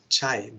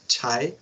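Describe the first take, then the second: First: The first consonant is aspirated, with a breath. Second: The first consonant is plain, without a breath. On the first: The speaker calls it right. "but here it was written with H" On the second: The speaker calls it wrong. "not chai"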